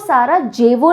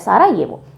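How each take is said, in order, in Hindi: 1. बीच का व्यंजन 'j' ध्वनि है। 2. बीच का व्यंजन 'y' ध्वनि है। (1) "इसको सारा जेवो नहीं बोलते हैं" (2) "सारा येवो कहा प्रोनाउंस किया जाता है"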